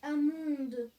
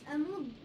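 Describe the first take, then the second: First: The last syllable rhymes with 'immonde'. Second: The last syllable has the standard 'an' vowel. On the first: The speaker is mocking the name as hideous. "je dis Amonde. Parce que c'est immonde" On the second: This is the accepted pronunciation. "je sais que ça se prononce Amande"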